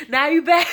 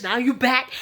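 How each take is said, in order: First: Teasing yell, higher and louder, laughing; mock shout. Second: Said in the usual way. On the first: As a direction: shout it back at her with a laugh. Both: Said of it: "Kelly is there like".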